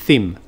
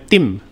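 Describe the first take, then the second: First: It begins with a th sound. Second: It begins with a plain t sound. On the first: The speaker calls it right. "bukan theme" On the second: The speaker calls it wrong. "dia ngomongnya tim"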